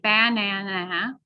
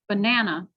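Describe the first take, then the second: First: Every syllable is stressed equally. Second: Only the middle syllable is stressed. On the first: The speaker calls it wrong. "We don't stress every single syllable" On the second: The speaker calls it right. "We only stress the middle one"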